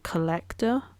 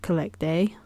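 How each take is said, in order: First: The name ends with a 'tor' sound. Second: The name ends with a 'day' sound. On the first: "some people might pronounce it Collector" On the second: "I always pronounce it Collect Day"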